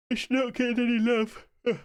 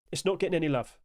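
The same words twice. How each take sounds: First: Talking through a yawn; words stretched by a big yawn. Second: Said in the usual way. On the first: Real, not acted. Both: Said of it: "Sorry, yawn there".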